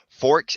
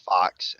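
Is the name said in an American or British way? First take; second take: British; American. First: It is said the British way, like forks. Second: It is said the American way, like fox. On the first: "The British way to say it is forks" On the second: "other people say it's fox, and that's the uh, American"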